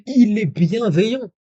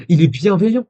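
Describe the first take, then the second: First: Very high, slow, swooping incredulity; slow sing-song disbelief, pitched right up; drawn-out mock indignation. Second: Raised, louder voice of disbelief; mock indignation. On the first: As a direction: stretch every word in mock amazement. Repeats it, drawn out for effect. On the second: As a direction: exclaim it high, in mock outrage. Mock indignation at the other's message.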